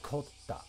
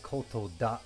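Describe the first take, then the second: First: It is said as one contracted word. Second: It is said as two full words. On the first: "they just say kotta" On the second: "instead of saying koto da"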